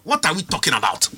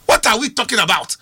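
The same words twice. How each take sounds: First: Said in the usual way. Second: Louder, pressing the question; exasperated louder repeat. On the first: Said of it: "repeated question". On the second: Real, not acted. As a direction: push it harder the second time. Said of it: "repeated question louder".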